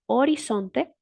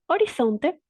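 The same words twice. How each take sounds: First: The z is an s sound, tongue behind teeth. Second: The z is a th sound, tongue between teeth. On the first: This is the variety that merges the two sounds. "con el fonema S corresponde al sistema no distinguidor" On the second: This is the variety that distinguishes the two sounds. "con el fonema corresponde al sistema distinguidor"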